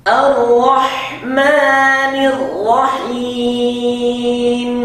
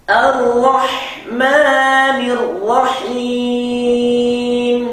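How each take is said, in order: The two takes are said the same way.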